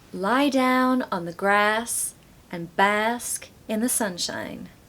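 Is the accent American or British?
American. It is said in an American accent.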